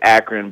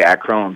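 First: It is said the local Akron way. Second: It is said the way outsiders say it.

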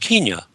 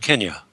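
First: The first syllable does not sound like Ken. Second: The first syllable sounds like Ken. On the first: This is the older colonial-era pronunciation. The speaker calls it wrong. "the British used to pronounce it that way" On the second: This is the name the country uses since independence. The speaker calls it right. "my father's name is Ken, so this would be easier for me"

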